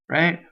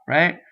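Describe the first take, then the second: Both takes have the same delivery.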